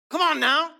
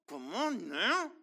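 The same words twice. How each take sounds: First: Loud, high preacher's call; a sudden preacher's shout; rousing call. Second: Stretched out, slow, settling; a slow drawn-out follow-up; slow drawn-out echo. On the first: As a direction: rouse the room. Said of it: "preacher's rousing call". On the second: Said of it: "repeated, drawn out". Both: Real, not acted.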